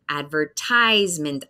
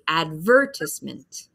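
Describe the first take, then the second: First: The stress is on the long I syllable. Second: The stress is not on the long I syllable. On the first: This is the American pronunciation. "we hear a long I sound. That's the big syllable in the word" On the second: This is the British pronunciation. "the British English one, we have a different focus"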